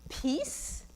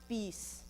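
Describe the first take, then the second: First: The word starts with a p sound. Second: The word starts with a b sound.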